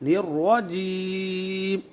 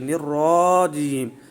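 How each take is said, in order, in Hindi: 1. र का स्वर भरा हुआ और छोटा है। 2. र का स्वर लंबा खिंचा हुआ है। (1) "मोटा पढ़ना है, मुंह में आवाज़ भर जाए" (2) "बाज़ लोग इसको दराज कर जाते हैं"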